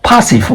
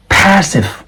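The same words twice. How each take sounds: First: PASSIVE said as "PAH-siv"; broad "ah" vowel in PASSIVE; wrong open A. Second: PASSIVE said as "PASS-iv" with the vowel of "cat"; careful "pass-iv" for PASSIVE; flat short A. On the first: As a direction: mistaken "pah-sive" for PASSIVE. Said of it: "This is not passive". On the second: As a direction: front A in PASSIVE, pitched high. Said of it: "This is air". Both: Shown as a demonstration.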